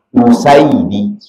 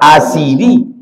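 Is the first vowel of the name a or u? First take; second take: u; a. First: The name begins with a u vowel. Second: The name begins with an a vowel. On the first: The speaker calls it right. "Rupanya yang betul membacanya bi dhammil hamzah. Hamzahnya dibaca dhammah" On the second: The speaker calls it wrong. "Bisa dibaca orang Asidi"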